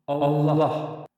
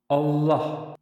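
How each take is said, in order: Both takes have the same delivery.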